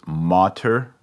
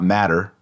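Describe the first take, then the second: First: The first vowel is long. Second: The first vowel is short. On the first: The speaker calls it right. "No, it's Mater Dei" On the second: The speaker calls it wrong. "It's not matter"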